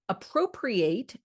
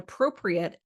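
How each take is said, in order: First: It is pronounced the way the verb sounds. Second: It is pronounced the way the adjective sounds. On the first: It means to take something as one's own. "appropriate as a verb" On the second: It means suitable or proper. "appropriate as an adjective"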